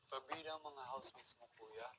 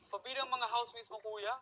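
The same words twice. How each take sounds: First: It is said in a sad tone. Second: It is said in an angry tone. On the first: "Sad naman. Sad" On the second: "Eto naman, angry"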